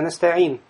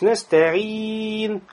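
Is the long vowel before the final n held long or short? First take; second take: short; long. First: The long vowel is held for two counts. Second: The long vowel is held for four counts. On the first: The speaker calls it wrong. "а не так" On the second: The speaker calls it right. "Это 4 огласовки должно быть"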